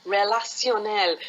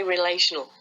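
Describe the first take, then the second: First: Put-on French accent, landing on the final syllable. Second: Said in the usual way. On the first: Helper translates for a workshop teacher, French accent. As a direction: pronounce it as a French word. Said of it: "say it in a French accent". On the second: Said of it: "same word with a different accent".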